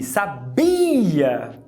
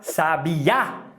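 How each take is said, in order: First: The stress is on the second syllable. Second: The stress is on the third syllable.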